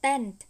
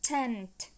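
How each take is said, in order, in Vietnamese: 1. Âm t đầu tiên không có luồng hơi bật ra. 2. Âm t đầu tiên có một luồng hơi bật ra. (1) "Chứ không phải là tent" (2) "thổi hơi ra"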